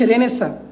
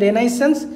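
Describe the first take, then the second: First: It is shortened, ending in a soft 'sa'. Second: Every letter is sounded, ending in 'sense'. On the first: This is how the word is actually pronounced. "উচ্চারণ হচ্ছে রেনেসা" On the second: It is said this way only to help remember the spelling. "স্পেলিংটা আমি যদি মনে রাখার জন্য বলি তাহলে হবে রেনাইসেন্স"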